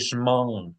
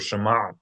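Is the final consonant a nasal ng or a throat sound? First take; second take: nasal; throat. First: The final ayin is said as a nasal ng. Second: The final ayin is said as a throat sound. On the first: "they pronounce the ayin as that nun" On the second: "instead of Shema or Shema"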